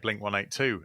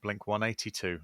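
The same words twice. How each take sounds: First: It is said in a non-American accent. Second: It is said in an American accent. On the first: This is how the speakers themselves say it. "we say" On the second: This is how Americans say it. "like uh, they do in Americans"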